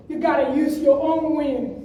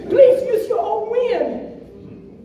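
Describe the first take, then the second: First: Said in the usual way. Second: Slow, high, laughing plea on Please; pleading emphasis. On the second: Real, not acted.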